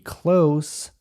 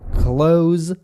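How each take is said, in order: First: The word ends with a voiceless hissing consonant. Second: The word ends with a voiced buzzing consonant. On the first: It means near. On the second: It means to shut something.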